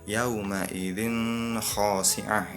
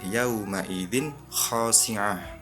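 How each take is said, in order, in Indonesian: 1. Bunyi n samar dan sengau. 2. Bunyi n dilafalkan dengan jelas. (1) "Itu salah karena ada samar atau dengung" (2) "Yang yang benar"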